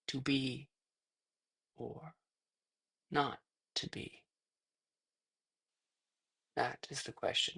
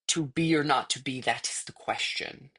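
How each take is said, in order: First: It is drawn out with long pauses. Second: It runs straight through without pausing.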